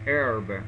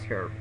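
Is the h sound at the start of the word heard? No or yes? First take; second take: no; yes. First: The word starts with a vowel, no h sound. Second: The word starts with a clear h sound. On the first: "Americans pronounce a common herb" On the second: "But British, they pronounce herb"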